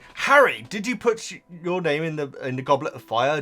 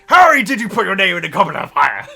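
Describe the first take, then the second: First: It is asked quietly and calmly. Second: It is asked loudly and aggressively.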